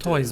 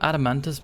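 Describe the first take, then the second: First: The word ends with a 'toise' sound. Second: The word ends with a 'tus' sound. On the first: "I've always pronounced it" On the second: "makes sense"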